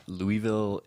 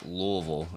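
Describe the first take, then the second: First: Louisville slowly as "LOO-ee-vil"; wrong pronunciation. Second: Louisville slurred to "LOO-vul"; local pronunciation. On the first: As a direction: spell out Louisville with a full EE, slow. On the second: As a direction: swallow the middle of Louisville, "LUH-vul". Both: Shown as a demonstration. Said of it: "It's not Louisville".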